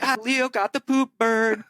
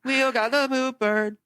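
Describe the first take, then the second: First: Put-on high jeering voice; classmates' taunt. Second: Slow, high mocking schoolkid jeer; exaggerated playground teasing, high and slow; drawn-out taunt. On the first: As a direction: tease like kids in class. Classmates teasing the latecomer. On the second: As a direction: stretch it out to rub it in.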